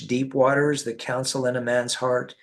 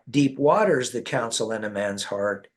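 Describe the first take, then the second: First: It is read plainly with little pitch movement. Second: It is read with lively, marked pitch movement.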